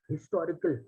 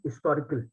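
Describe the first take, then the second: First: The word begins with an audible h sound. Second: The word begins without any h sound. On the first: "The H is pronounced" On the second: "there are a few people who do not pronounce the H"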